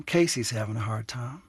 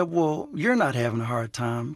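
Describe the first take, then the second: First: "Casey's" gently stressed, naming herself from outside. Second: "you're" licht benadrukt, retold therapist correcting her; stress on you're. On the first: Retold or imitated. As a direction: put the weight on "Casey's" instead of "you're". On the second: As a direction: lean a little on "you're" as the word being denied. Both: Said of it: "And he said".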